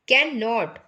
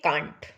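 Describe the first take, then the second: First: It is said as two separate full words. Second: It is said as one contracted syllable.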